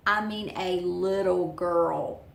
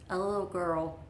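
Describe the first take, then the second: First: "little" drawn out slowly and louder; emphatic LITTLE. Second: Said in the usual way. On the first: Real, not acted. Repeats it to stress tiny size.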